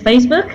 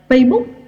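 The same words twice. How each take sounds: First: The final k sound is clearly pronounced. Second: The final k sound is dropped. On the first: "if it is Facebook" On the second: "there is no ending sound to it"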